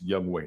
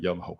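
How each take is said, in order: First: The second part sounds like 'way'. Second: The second part sounds like 'hoe'. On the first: The speaker calls it right. "It's Young Wei" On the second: The speaker calls it wrong. "not Young Ho"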